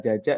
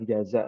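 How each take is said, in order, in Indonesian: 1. Konsonan kedua diucapkan sebagai j. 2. Konsonan kedua diucapkan sebagai z. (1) "dari logatnya orang Sunda ya ... makanya pakainya jaja jaja ya" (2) "bukan jaza ya"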